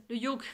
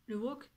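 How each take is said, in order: First: "yoke" starting with a y sound; corrected pronunciation. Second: "wok" with a w sound at the start; mispronounced yoke. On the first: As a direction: say "yoke" with a y glide, not a w. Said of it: "le wok, c'est de la bouffe ça?". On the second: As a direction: say "wok", like the cooking pan. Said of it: "c'est de la bouffe ça". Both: Real, not acted.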